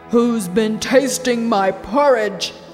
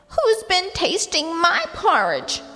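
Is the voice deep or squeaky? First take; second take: deep; squeaky. First: It is a deep Father Bear voice. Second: It is a squeaky Baby Bear voice.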